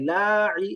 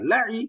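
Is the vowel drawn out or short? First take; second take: drawn out; short. First: The vowel is drawn out long. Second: The vowel is kept short. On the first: The speaker calls it wrong. "লাই এরকম না" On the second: The speaker calls it right. "কোনো টান নেই"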